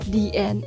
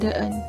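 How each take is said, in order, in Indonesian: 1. 'The' diucapkan 'thee' sebelum vokal. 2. 'The' diucapkan 'thuh' sebelum vokal. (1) "the akan dibaca menjadi di"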